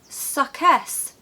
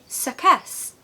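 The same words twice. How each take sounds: No difference in how they are said.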